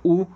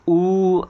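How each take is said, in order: First: The vowel is held very briefly. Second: The vowel is drawn out about three times as long. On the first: "ऱ्हस्व उ" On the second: "असं याचं तीन मात्रापर्यंत"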